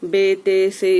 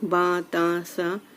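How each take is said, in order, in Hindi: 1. हर अक्षर-नाम 'ay' स्वर से खत्म होता है। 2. हर अक्षर-नाम 'ah' स्वर से खत्म होता है। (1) "इस तरीके से ना पढ़ के" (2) "ऐसे पढ़ना है"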